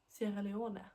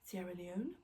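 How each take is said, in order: First: The name is said with a Swedish pronunciation. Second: The name is said with an English pronunciation.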